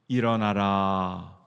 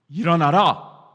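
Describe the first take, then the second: First: It is said gently and warmly. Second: It is said forcefully and commandingly.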